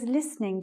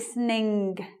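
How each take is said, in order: First: The final g sound is heard but soft. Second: The final g sound is rung out strongly. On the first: This is careful speech with good enunciation. "you hear my G. It's very soft, but it's there" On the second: This is a feature of some northern accents. "ring the G"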